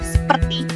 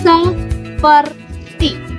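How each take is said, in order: First: The first vowel is dropped. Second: A vowel is kept between the s and p. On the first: The speaker calls it wrong. "kata baku dari kata seperti" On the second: The speaker calls it right. "itu adalah seperti"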